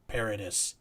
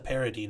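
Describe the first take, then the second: First: The name is pronounced the Americanized way. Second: The name is pronounced the French way. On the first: The speaker calls it wrong. "the fancy like you know Kentucky pronunciation" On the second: The speaker calls it right. "I thought it was Vanessa Paradis"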